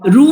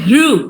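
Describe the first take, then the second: First: The syllable begins directly with an r sound. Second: The syllable begins with an h sound. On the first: The speaker calls it wrong. "રૂ નથી" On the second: The speaker calls it right. "હૃ છે"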